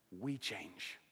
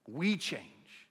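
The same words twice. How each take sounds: First: Soft, lower, hushed; quiet. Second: Firm restatement with weight on We; emphatic. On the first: Pastor confessing to the congregation, quiet and low. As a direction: drop it to a near hush. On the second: Pastor driving home the point to his flock, firm emphasis. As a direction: push the word We out firmly. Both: Shown as a demonstration. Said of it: "contrasting God's constancy with us".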